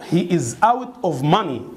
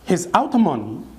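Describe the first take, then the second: First: It is spoken slowly with each word separate. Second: It is spoken quickly with the words run together. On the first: "ده طبعا slow speaking" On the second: "انطقها ازاي fast speaking؟"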